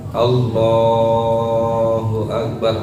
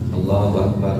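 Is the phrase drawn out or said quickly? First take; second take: drawn out; quick. First: The phrase is drawn out and long. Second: The phrase is said short and quick. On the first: It goes with a long movement. "agak panjang" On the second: It goes with a quick movement. "takbirnya tidak usah terlalu panjang juga"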